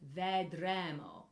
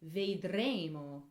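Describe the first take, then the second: First: The vowel is pronounced open. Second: The vowel is pronounced closed. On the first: The speaker calls it wrong. "it could have very open S sounds" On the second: The speaker calls it right. "It has to have closed A sounds"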